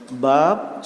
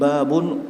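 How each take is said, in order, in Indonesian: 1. Kata ini berakhir tanpa vokal setelah b. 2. Kata ini berakhir dengan bunyi -un. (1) "dibaca dengan disukunkan" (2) "dengan tanwin babun"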